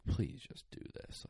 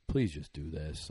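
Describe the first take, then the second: First: Breathy whispered "Please just do this"; hushed begging whisper, almost no voice. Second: Said in the usual way. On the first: Retold or imitated. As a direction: whisper the plea softly to the dogs. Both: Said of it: "and I'm like".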